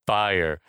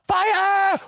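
First: Low, understated imitation of a groovy fan; smiling, bebopping. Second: Very high, hammed-up scream; imitated scream. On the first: Host imitating Rock naming the song, understated bebopping smile. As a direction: say it lightly with a smile, voice dropping. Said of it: "smiling and, like, bebopping along". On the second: Host imitating Eddie obsessed with the video, high mock scream. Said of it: "Eddie screams out".

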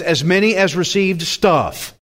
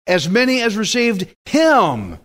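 First: "stuff" dropped in as the punchline; deliberate misquote. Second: Higher-pitched verse with "Him" emphasized; stress on "Him". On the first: Preacher testing the congregation with a wrong word, "stuff" stated confidently. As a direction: misquote the verse, landing firmly on "stuff". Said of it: "I love it when I do that". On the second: Preacher correcting the misquote for the congregation, "Him" stressed. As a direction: correct the quote, hit "Him" with a falling tune. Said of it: "what? Him". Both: Shown as a demonstration.

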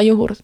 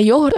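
First: Йогурт stressed on the second syllable, йо-ГУРТ. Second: Йогурт stressed on the first syllable, ЙО-гурт. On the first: Showing the correct form, йогурт stressed on ГУРТ. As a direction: put the weight on ГУРТ in йогурт. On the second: Correcting the rejected form, йогурт stressed on ЙО. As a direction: put the weight on ЙО in йогурт. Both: Shown as a demonstration. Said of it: "Ті самі літери, просто інший наголос".

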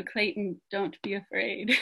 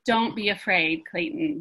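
First: A light, soft hint of a Spanish accent on "Clayton, don't be afraid". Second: Said in the usual way. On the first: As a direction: gently imitate a Spanish-speaking friend saying "Clayton". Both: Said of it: "But in her beautiful Spanish accent".

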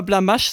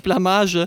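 First: Blamage mit scharfem sch am Ende, wie Blamasch; falsche Aussprache. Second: Said in the usual way. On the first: Retold or imitated. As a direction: Blamage hart auf sch endend aussprechen. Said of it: "aber zu Blamage sagt er Blamage". (Stewies falsches Blamage, Blamasch gesprochen) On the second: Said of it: "anstatt Blamage".

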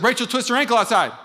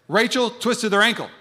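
First: Louder, higher alarm; alarmed report. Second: Said in the usual way. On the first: Retold or imitated. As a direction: sound the alarm. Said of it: "if somebody says". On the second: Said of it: "somebody said".

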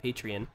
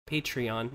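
First: "Patreon" with a Southern drawl, PAY-tree-un; "Patreon" with the last vowel reduced, Southern style. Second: "Patreon" with a clear final "on" vowel, PAY-tree-on; "Patreon" spoken carefully as pay-tree-ON; Patreon said correctly. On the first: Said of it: "that's my southern accent coming out". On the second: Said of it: "not Patreon". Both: Shown as a demonstration.

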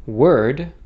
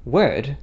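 First: "word" with a hard American R; "word" with the R fully sounded; Americanized pronunciation. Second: "word" with the R dropped; "word" without any R sound, British-style; non-rhotic pronunciation. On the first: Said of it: "as the Americanized pronunciation would be". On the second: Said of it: "I pronounced it as". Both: Shown as a demonstration.

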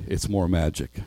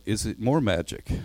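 First: Lightly voiced great lion, lower; understated, lower answer with settled authority. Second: Put-on mild questioning cry of a story child; Susan's cry. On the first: Great voice answers behind their backs, lightly lowered. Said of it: "said a great voice". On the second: Susan asks about the magic, mildly crying out. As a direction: read as a girl's wondering question. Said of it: "Susan cried". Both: A narrator's reading.

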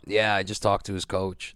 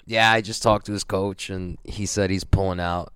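First: A barely changed, lightly voiced Mo; understated mimic of the organizer; hint of Mo's voice, mostly his own; impression of Mo. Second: Mimicking the organizer with a bit more color; a mild mock take on Mo breaking the news; impression of Mo. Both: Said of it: "That's my impression of him".

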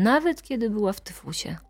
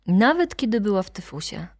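First: Unvoiced whisper of nawet kiedy była w tyfusie. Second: Said in the usual way. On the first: Shown as a demonstration. Narrator tries the line as a hushed aside, whispered. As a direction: breathe the line without voice.

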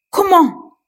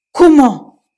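First: Comment? pitched much higher, squeaking with disbelief; rising disbelief. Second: Comment? shouted loud and higher in disbelief; shocked disbelief. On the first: Police chief repeating his question, high-pitched disbelief. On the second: Police chief who cannot believe his ears, loud shocked Comment?. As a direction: bark out Comment? stunned. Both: Acted. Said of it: "n'en croyait pas ses oreilles".

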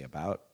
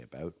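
First: "about" with the American vowel; demonstrating the American "about". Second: "about" with a raised Canadian vowel; demonstrating the Canadian "about". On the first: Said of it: "you guys say about". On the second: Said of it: "we say about". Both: Shown as a demonstration.

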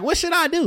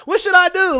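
First: Much higher, earnest mock plea; high pleading voice. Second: Squeaky mock plea, much higher and louder; high pleading voice. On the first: Partner asking what to do, high and pleading. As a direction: beg for advice in a raised voice. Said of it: "Like, real shit". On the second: Partner pleading for advice in a high squeal. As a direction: ask it like a desperate partner, high and loud. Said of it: "Not daddy, but". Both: Shown as a demonstration.

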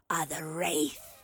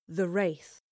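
First: Low, slow wraith growl on "are the Wraith"; menacing wraith voice. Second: Said in the usual way. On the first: Acted. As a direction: announce yourself like a ghoul. Creature names itself.

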